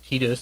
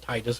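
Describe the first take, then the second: First: The first vowel sounds like 'ee'. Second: The first vowel sounds like 'eye'. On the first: This is the Japanese-style pronunciation. "in Japan, I's are pronounced as E. So Titus would be correct there" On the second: This is the local English-style pronunciation. "and Titus would be right here"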